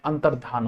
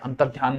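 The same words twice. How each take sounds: First: अंतर्धान softly, with plain dhaan and no y; correct form अंतर्धान. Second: अंतर्ध्यान softly, with a y after ध; wrong form अंतर्ध्यान. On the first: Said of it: "अंतर्ध्यान नहीं होता". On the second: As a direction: slip dhya into अंतर्ध्यान, low and soft. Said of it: "नहीं होता". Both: Shown as a demonstration.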